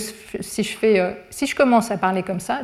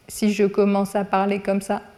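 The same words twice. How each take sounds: First: It is split into two prosodic groups. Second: It is said as one ungrouped stretch. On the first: The phrase is grouped to match its syntax. The speaker calls it right. "je vous ai fait deux paquets" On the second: The phrase is harder to understand. The speaker calls it wrong. "c'est beaucoup plus difficile de comprendre"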